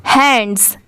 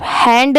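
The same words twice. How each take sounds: First: हैंड्स with a clear s after the d; low, falling हैंड्स with its plural ending; final s sounded. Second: हैंड ending on d, no s; हैंड as the bare singular; without final s. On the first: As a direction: finish हैंड्स on an audible s. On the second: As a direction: leave the s off हैंड. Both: Shown as a demonstration. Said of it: "सिर्फ हैंड नहीं पढ़ेंगे".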